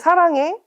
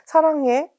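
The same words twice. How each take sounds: First: It is said in a bright, joyful way. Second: It is said in a plain, neutral way.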